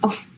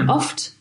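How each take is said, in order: First: The word ends without any t sound. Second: The word ends with a clear t sound. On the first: "die sprechen die Wörter oft nicht ganz aus" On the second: "Sie sagen dann nicht oft"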